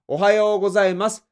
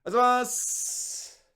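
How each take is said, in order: First: "おはようございます" every mora crisp and loud; clear greeting. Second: "おはようございます" rushed and slurred into a blur; slurred greeting. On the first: Boss demanding a proper "おはようございます" from his junior, loud and crisp. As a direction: say "おはようございます" fully and loudly. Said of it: "ちゃんと...言え". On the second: Junior mumbling "おはようございます" to a strict boss, sloppy. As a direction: slur "おはようございます" fast and sloppy. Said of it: "some people who notice". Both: Shown as a demonstration.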